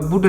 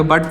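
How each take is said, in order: First: 'बुट' with a short oo vowel; wrong vowel demo. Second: 'बट' with a short uh vowel; correct vowel demo. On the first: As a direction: say 'बुट' with u as in put. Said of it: "बुट नहीं पढ़ेंगे". ('बुट' में छोटे उ की मात्रा का उच्चारण) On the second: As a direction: say 'बट' with u as in cup. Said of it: "बट पढ़ेंगे". ('बट' बिना मात्रा, छोटे अ के साथ) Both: Shown as a demonstration.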